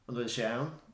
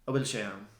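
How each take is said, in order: First: The opening particle is said in full. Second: The opening particle loses its n sound. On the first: It is the standard complete question. "So the full question" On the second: It sounds a little more relaxed. "but drop the N"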